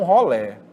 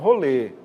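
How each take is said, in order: First: The final vowel is an open e. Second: The final vowel is a closed e. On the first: Some groups say it this way. "até eu falei rolé" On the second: Other groups say it this way.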